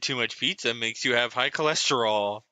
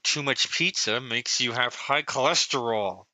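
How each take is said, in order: First: It is said in a normal, relaxed voice. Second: It is said tensely through clenched teeth. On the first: The speaker calls it wrong. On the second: The speaker calls it right.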